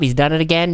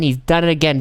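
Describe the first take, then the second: First: "again" carries the weight, announcer style; stress on again. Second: "it" carries the weight, falling at the end; stress on it. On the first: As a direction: lean on "again" as the key word. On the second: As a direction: hit "it" in "done it again". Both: Acted. Announcer repeats, stress varies.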